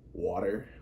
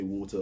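First: It is said in a North American accent. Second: It is said in a British accent.

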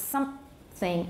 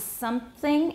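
First: A short stop is added after the nasal. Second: There is no added stop after the nasal.

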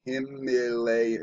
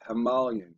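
First: The middle of the word sounds like 'lay'. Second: The middle of the word sounds like 'mal'. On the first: The speaker calls it wrong. "we've been taught to say Himalay" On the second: The speaker calls it right. "So it's Himal, like the language Tamil"

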